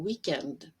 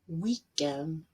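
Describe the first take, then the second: First: The final consonant sound is clearly pronounced. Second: The final consonant sound is left off. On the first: The speaker calls it right. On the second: The speaker calls it wrong.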